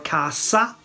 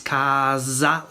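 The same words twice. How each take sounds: First: The s is hissed, with no buzz. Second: The s is buzzed, almost like a z. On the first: This is how it is said in the center and south. "with the uh, sorda, with uh, with the unvoiced s" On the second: This is how it is said in the north. "like this, almost like a z"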